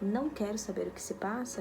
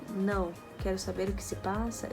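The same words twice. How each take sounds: First: It is said with no pause after the first word. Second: There is a pause after the first word.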